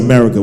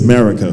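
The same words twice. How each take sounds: First: It is said with a standard American pronunciation. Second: It is said with an Antiguan pronunciation. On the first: This is how outsiders say it. "We don't say America" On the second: This is how people back home say it. "We say America"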